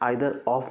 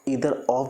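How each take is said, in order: First: The word begins with an 'eye' sound. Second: The word begins with an 'ee' sound. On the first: "आइदर of भी बोल सकते हैं" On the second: "इधर of भी बोल सकते हैं"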